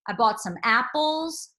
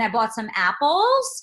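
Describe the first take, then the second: First: The pitch falls at the end. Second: The pitch rises at the end. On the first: It is a declarative statement. "I'm dropping on that" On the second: It sounds like an inquiry. "sort of sounds like a question"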